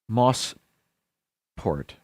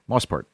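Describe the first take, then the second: First: The name is said slowly, parts kept apart. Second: The name is said quickly, parts run together.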